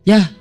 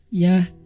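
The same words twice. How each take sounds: First: It sounds curt and harsh. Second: It sounds friendly and relaxed.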